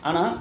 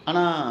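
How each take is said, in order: No difference in how they are said.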